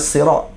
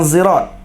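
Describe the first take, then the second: First: The word begins with an emphatic s sound. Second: The word begins with a z sound. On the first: It is the common reading. "Kita sirat" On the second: It is another recognized variant reading. "baca dengan zai"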